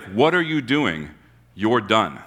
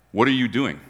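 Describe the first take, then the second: First: Slow "What are you doing?" with weight on "are", then a flat "You're done."; blunt slow firing. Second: Said in the usual way. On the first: Retold or imitated. Master firing the manager, slow and final. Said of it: "He's like". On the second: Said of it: "And he's not like".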